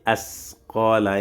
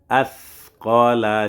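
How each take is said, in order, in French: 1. Le son s est léger et simple. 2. Le son s est lourd et emphatique. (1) "si tu enlèves la langue, tu vas dire" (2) "Au lieu de dire as"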